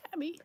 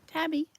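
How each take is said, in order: First: Said in the usual way. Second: High sing-song call to a cat; high coaxing call for Tabby. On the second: Real, not acted. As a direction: lilt the name up to coax the cat out. Calling the cat by name.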